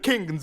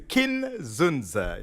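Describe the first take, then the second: First: The name is split as 'King' plus 'Nzu'. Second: The name is split as 'Kin' plus 'Zunza'. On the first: The speaker calls it wrong. "It's not King Nzu" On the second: The speaker calls it right. "it's a Kin Zunza"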